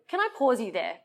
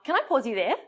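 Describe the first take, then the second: First: The voice falls at the end. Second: The voice rises at the end like a question.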